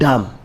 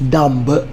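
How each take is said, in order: First: The final b sound is silent. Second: The final b sound is pronounced. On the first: The speaker calls it right. "This is dumb" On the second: The speaker calls it wrong. "This is not dumb"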